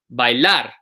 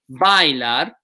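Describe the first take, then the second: First: The stress is on the last syllable. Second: The stress is on the second-to-last syllable. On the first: The speaker calls it right. "It's the last syllable that gets the stress" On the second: The speaker calls it wrong. "We don't say bailar"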